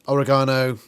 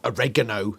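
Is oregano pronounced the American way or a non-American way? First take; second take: non-American; American. First: It is said in a non-American way. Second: It is said in an American way.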